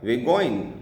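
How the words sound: The words are run together and heavily reduced. "कोई American है ... वो बोलेगा"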